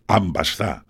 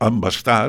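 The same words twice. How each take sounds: First: The first vowel is a clear, open A. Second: The first vowel is less open and reduced. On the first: This is how the local people say it. "nosaltres diem embastar" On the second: This is how a northern speaker says it. "diria un del nord"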